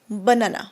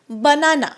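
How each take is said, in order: First: The first vowel is a weak schwa sound. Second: The first vowel is a full 'ah' sound. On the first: The speaker calls it right. "आ नाही अ sound येतो" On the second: The speaker calls it wrong. "आपण आ म्हणतो"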